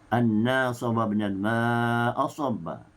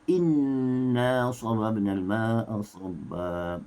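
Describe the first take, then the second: First: The first word begins with an 'a' sound. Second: The first word begins with an 'i' sound. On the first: "Hafs membaca dengan anna" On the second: "hamzah berbaris di bawah"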